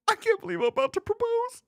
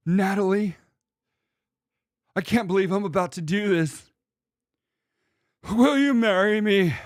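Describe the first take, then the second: First: Falsetto mock proposal, far higher; mocking proposer. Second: Lightly hammed-up proposal from the next room; a hint of a teary suitor proposing; mock proposal. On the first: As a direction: squeal it like a silly dork proposing. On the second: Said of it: "And they're like".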